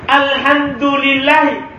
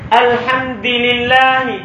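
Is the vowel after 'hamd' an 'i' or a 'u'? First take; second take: u; i. First: The vowel after hamd is u. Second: The vowel after hamd is i. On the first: The ending shows the word's own grammatical case. "Kan mubtada harus marfu. Harusnya dibaca apa?" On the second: The ending copies the vowel of the next word. "Dia kasro dalnya karena ikut kasro lam yang pertama lillah"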